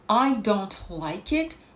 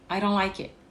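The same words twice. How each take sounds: First: Every sound is pronounced fully and clearly. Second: The words run together with reduced consonants.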